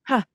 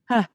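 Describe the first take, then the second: First: The vowel starts softly with a slight breath. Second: The vowel starts softly with a slight breath.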